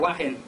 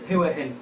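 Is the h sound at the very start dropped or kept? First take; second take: dropped; kept. First: The opening h is dropped, giving wah-hin. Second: The opening h is kept, giving hua-hin. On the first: The speaker calls it wrong. "I don't say it the right way. I say Wahin" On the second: The speaker calls it right. "I think that's the correct way to say it"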